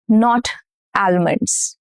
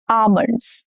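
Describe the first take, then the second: First: A silent letter is pronounced. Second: The silent letter is not pronounced. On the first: The speaker calls it wrong. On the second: The speaker calls it right.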